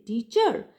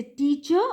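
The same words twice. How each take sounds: First: "teacher" with the stress moved onto CHER; stress on second syllable. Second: "teacher" with the stress on TEA; stress on first syllable. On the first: Lecturer testing the wrong stress, on the second syllable. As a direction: wrongly punch the end of "teacher", tea-CHER. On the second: Lecturer asking where stress falls, stressing the first syllable. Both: Shown as a demonstration. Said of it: "do we put the stress in the second syllable".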